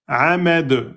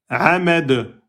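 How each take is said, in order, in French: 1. Le mot se termine par un son d sec. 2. Le mot se termine par un son d sec.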